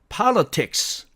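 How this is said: It is said with a British pronunciation. "영국식으로 제대로 분절을 해서 읽어보니까"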